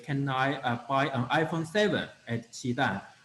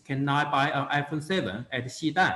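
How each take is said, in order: First: The stress is not on Xidan. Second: The stress is on Xidan. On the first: The asker wants that phone and could go elsewhere. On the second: The asker is at that place and wants a phone there.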